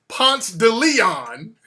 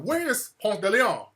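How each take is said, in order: First: The name is said in the local form. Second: The name is said in its standard form. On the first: "So it's Ponce de Leon in Atlanta" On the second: "I had to stop pronouncing the shit correctly"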